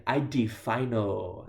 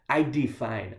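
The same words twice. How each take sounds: First: Fino stretched slow with the added O; pidgin emphasis. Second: Said in the usual way. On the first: Shown as a demonstration. Teaching the pidgin reply, stretching fino for emphasis. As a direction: draw out I de fino, leaning on the final O. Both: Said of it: "put an O on there for extra emphasis".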